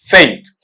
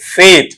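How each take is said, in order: First: The vowel glides from one sound to another. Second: The vowel is a single steady sound. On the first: The speaker calls it right. "Diphthong यहां पर ऐसा बनेगा इस तरीके से" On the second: The speaker calls it wrong. "हम बोलते हैं मोनोप्थोंग"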